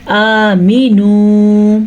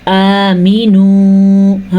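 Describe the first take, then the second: First: آمینو with the میم stretched long; wrong long mim. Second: آمِنُوا with a long آ and a short میم; correct reading. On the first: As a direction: show the mistake, drawing out the مِی in آمینو. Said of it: "آمینو پڑھتے ہیں تو یہ غلط ہے". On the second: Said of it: "حمزہ کھڑی زبر آ". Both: Shown as a demonstration.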